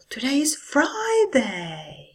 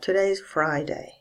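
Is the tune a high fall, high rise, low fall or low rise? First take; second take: high fall; low fall. First: It starts high and falls down. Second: It starts low and falls even lower. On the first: It shows much more enthusiasm. "Or with a high fall" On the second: It simply states a fact. "can be said with a low fall"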